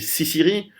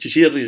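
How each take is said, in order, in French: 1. Le mot se prononce à la française. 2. Le mot se prononce à l'italienne. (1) "c'est très compliqué dans la langue française de dire" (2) "je suis italien d'origine, donc Ciciri, je sais dire"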